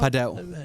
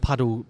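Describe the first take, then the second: First: The word sounds different from the English word paddle. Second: The word sounds like the English word paddle. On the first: The speaker calls it right. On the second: The speaker calls it wrong.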